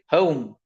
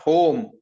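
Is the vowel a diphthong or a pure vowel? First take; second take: diphthong; pure vowel. First: The vowel glides from one sound into another. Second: The vowel is a single pure o sound. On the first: The speaker calls it right. "They will say home" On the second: The speaker calls it wrong. "not home"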